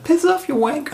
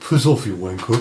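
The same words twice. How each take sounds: First: It is said in a very young voice. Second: It is said in a normal voice.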